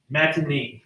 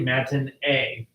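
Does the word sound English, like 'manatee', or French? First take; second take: English; French. First: It sounds much like the word 'manatee'. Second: It is said with a French-style pronunciation. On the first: The speaker calls it wrong. "Almost sounds like manatee" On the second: The speaker calls it right. "It's a French word"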